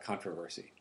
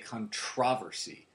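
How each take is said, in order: First: It is said with an American English pronunciation. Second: It is said with a British English pronunciation. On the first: "instead of controversy" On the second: "In England, they say controversy"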